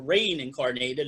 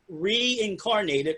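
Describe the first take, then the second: First: The first syllable sounds like 'rain'. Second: The first syllable sounds like 'ree'. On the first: "as some people like to pronounce it, because it's R E I N is her name" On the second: "It's called Reincarnated"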